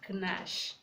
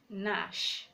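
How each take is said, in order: First: The word starts with a g sound before n. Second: The word starts with an n sound only. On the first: The speaker calls it wrong. "not Knash" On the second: The speaker calls it right. "When G comes before N, the G is silent"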